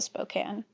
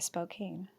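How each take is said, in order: First: The last syllable sounds like 'can'. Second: The last syllable sounds like 'cane'. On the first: "I'm almost certain it's also Spokane" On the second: "people shouldn't put an E on the end of it if they don't want me to say Spokane"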